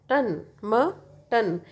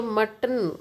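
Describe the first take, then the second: First: Very slowly, syllable by syllable; slow syllable demo. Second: Said in the usual way. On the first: Shown as a demonstration. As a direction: pull the word apart into its syllables, slowly. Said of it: "तो इसको आप ऐसा समझो".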